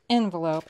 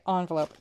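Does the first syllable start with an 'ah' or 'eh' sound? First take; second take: eh; ah. First: The first syllable starts with an 'eh' vowel. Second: The first syllable starts with an 'ah' vowel. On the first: "Say E if you'd say envelope" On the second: "O if you say envelope"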